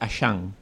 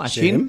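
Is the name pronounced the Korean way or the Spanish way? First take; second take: Korean; Spanish. First: The name is pronounced with original Korean sounds. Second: The name is pronounced with Spanish sounds. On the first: "la pronunciación en original, en coreano" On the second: "tal como se pronunciaría en castellano"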